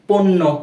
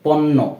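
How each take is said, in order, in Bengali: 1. প্রথম স্বরধ্বনিটি ও-কার ছাড়া উচ্চারিত হয়। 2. প্রথম স্বরধ্বনিটি ও-কার সহ উচ্চারিত হয়। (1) "আমরা কিন্তু এভাবে পড়ছি না" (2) "পণ্য এরূপ উচ্চারণ হয়"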